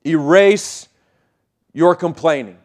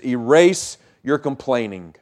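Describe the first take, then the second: First: "Erase" set apart and rising, then "your complaining" falling; slow stressed repeat. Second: Said in the usual way. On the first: Shown as a demonstration. Pastor repeats to the church, "Erase" lifted, then "your complaining" pressed down.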